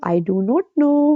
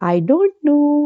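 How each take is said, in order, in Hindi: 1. दोनों शब्द अलग-अलग पूरे बोले जाते हैं। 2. दोनों शब्द एक ही शब्दांश में मिल जाते हैं। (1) "कोई बोलता है आई डू नॉट नो?" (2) "सब कहते हैं आई डोंट नो"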